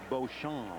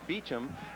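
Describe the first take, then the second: First: The name is said with a French pronunciation. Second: The name is said as Beecham, two short syllables. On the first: It is meant to charm women. "I kind of like the French pronunciation" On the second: It is the family elder's version. "My father says Beecham"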